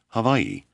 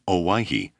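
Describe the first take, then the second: First: The name begins with an H sound. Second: The name begins with an O sound. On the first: "You pronounce the name of the islands Hawaii" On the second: "We've been calling them Owyhee"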